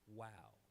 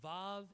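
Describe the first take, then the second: First: The word begins with a w sound. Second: The word begins with a v sound. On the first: This is the biblical pronunciation. "in biblical Hebrew, it's pronounced wow" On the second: This is the modern pronunciation. "It's vav in modern Hebrew"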